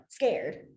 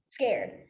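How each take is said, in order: Both takes have the same delivery.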